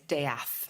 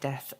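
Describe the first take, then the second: First: The word is given an altered pronunciation. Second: The word is given its ordinary pronunciation. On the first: It is a surname made to sound more attractive. "change the pronunciation" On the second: It is the ordinary word for dying. "instead of death"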